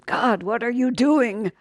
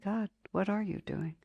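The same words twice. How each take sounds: First: The question sounds angry and rebellious. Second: The question sounds calm and accepting. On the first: The asker resists and rejects what is happening. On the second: The asker seeks to understand what is happening.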